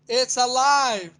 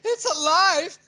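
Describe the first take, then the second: First: It is flat and robotic, with no change. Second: It builds in pace, intensity and pitch, excitedly. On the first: The speaker calls it wrong. "There's nothing happening there" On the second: The speaker calls it right. "it's a buildup of"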